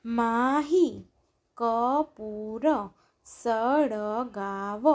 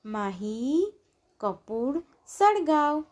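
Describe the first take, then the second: First: Mahi Kapoor સળગાવ slow, each syllable stretched; drawn-out Mahi Kapoor સળગાવ, syllables separated. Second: Said in the usual way. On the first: Shown as a demonstration. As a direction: sound out Mahi Kapoor સળગાવ slowly, pausing between words. Syllable-by-syllable reading, then blended words.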